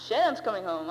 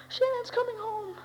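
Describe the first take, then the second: First: Said in the usual way. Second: High, slow tearful wail; mom crying the news. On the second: Retold or imitated. Mother sobbing to her son, tearful high wail. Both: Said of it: "and I hear".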